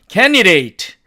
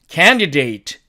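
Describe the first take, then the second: First: The d sound is dropped. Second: The d sound is clearly pronounced. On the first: This is how native speakers say it. "이 d를 사라지게 하고 나니까" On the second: This is the dictionary pronunciation. "이 단어의 사전식 발음은"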